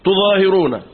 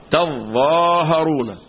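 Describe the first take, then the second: First: تظاهرون with u on ta, single za, i on ha; tu-zahiruna reading. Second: Slow تظاهرون with a on ta, doubled za, a on ha; tazzaaharuna reading. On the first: Teacher showing first reading, تظاهرون with damma, light za, kasra. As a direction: say تظاهرون as tu-ZAA-hi-roo-na, higher. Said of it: "دي قراءة بضم التاء". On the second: Teacher contrasting second reading, تظاهرون with fatha and doubled za. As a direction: hold the za of تظاهرون: taz-ZAA-ha-roo-na. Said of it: "فتح التاء". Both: Shown as a demonstration.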